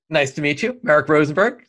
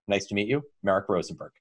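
First: It is said big and full of energy. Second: It is said in a reserved, restrained way. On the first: The speaker comes across as outgoing and enthusiastic. "Everything about the parrot is just bigger" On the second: The speaker comes across as careful and analytical. "I know the last one's the owl"

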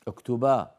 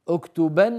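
First: The word ends in a long a. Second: The word ends in an n sound. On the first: The speaker stops at this word. "فإذا أراد أن يقف على اكتبن يقول اكتبا" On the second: The speaker continues speaking after the word. "اكتبن يا هذا"

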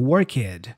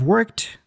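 First: The -ed ending is said as an extra syllable. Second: The -ed ending adds no extra syllable. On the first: The speaker calls it wrong. "learners go worked" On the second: The speaker calls it right. "instead of worked"

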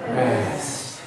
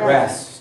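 First: It is said on a deep, breathy exhale. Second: It is said plainly, without an exhale.

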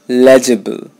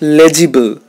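First: The middle vowel is reduced or dropped. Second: The middle vowel is pronounced fully. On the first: The speaker calls it right. "I know there is an I there, but you're not going to pronounce it" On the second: The speaker calls it wrong. "Not legible"

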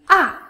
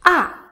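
Both takes have the same delivery.

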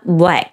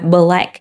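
First: The first two consonants run together without a break. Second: A small break separates the first two consonants. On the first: The speaker calls it right. "mà mình sẽ nói là" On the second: The speaker calls it wrong. "chúng ta sẽ không nói là"

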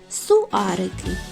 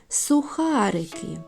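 First: The word is said without the kh sound. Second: The word is said with the kh sound. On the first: The speaker calls it wrong. "погублять всі звуки Х" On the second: The speaker calls it right. "Як правильно сказати?"

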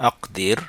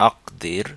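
The two takes are said the same way.

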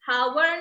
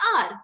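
First: The word begins with an h sound. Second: The word begins with a vowel sound. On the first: The speaker calls it wrong. "इसको हम हावर नहीं बोलते हैं" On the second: The speaker calls it right. "एच यहाँ पे silent रहता है"

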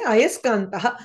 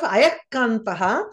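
First: An s sound comes before the k. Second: There is no s sound before the k. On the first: The speaker calls it right. "you say Ayaskantaha" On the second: The speaker calls it wrong. "instead of Ayakantaha"

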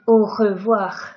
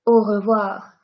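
First: The R is harsh and strongly rasped in the throat. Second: The R is soft with a small vibration. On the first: The speaker calls it wrong. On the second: The speaker calls it right.

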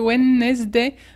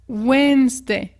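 First: The middle D and E are sounded. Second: The middle D and E are silent. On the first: The speaker calls it wrong. "Non, non, non" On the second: The speaker calls it right. "comme si le D et le E disparaissaient"

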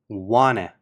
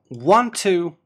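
First: The words blend into one reduced form. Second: Both words are said fully and separately.

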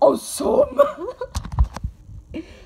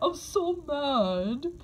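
First: The words are said with audible anger. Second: The words are said calmly, without anger. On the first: The speaker calls it right. "then be mad" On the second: The speaker calls it wrong. "You don't say mad"

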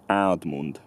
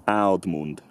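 Both takes have the same delivery.

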